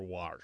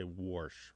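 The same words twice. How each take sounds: First: "wash" said as "warsh", lower and softer; intrusive R. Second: "warsh" said as "worsh", lower and softer; intrusive R. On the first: Host showing two dialect variants, AR pronunciation. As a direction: say "wash" with an open "ar" before sh. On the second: Host showing two dialect variants, OR pronunciation. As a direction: say "warsh" with an "or" vowel before sh. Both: Shown as a demonstration. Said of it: "have this intrusive R and say".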